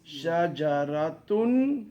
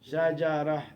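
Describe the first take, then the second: First: A t sound follows the vowel, then -un. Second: It ends in a breathy vowel with no t. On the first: "If you add more words, then it sounds" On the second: "Some air has to come out"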